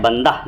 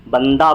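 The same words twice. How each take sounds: First: बंदा said as 'bandah', h audible; sounded final h. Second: बंदा ending in an open 'aa'; h as alif. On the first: Teacher showing the rejected form, 'bandah' with h. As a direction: add a breathed h to the end of बंदा. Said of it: "बंदा नहीं बोलते हैं". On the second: Teacher showing the right form, 'bandaa' without h. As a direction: end बंदा on a clean long a. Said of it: "बंदा बोलते हैं". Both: Shown as a demonstration.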